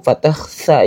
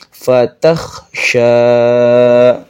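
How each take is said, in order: First: The last syllable has a plain s sound. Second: The last syllable has a sh sound. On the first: The speaker calls it wrong. "bukan fatah sa atau fatah sa yang kecil" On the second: The speaker calls it right. "tapi sya"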